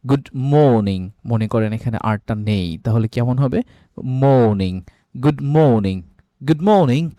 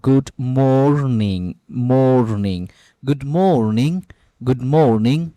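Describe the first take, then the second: First: মর্নিং said moniŋ with no r; British no r. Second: গুড মর্নিং with a clear r in মর্নিং; American r. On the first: Teacher drilling the British গুড মর্নিং without r. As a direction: drop the r in মর্নিং, British style. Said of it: "আর এর উচ্চারণটি এখানে করে না". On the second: Teacher drilling the American গুড মর্নিং for repeating. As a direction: sound the r in মর্নিং, said slowly. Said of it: "এর উচ্চারণটা হয় মর্নিং". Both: Shown as a demonstration.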